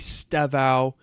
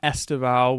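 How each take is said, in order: First: The name starts directly with an s sound. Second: The name starts with an added vowel sound. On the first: The speaker calls it right. "essentially Stevao" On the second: The speaker calls it wrong. "not Estevao"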